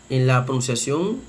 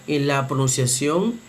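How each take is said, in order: Both takes have the same delivery.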